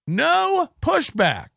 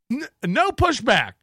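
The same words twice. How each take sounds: First: Slow, higher, stretched No pushback; slow mock emphasis on No pushback; drawn out. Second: Said in the usual way. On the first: Shown as a demonstration. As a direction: draw out No pushback mockingly.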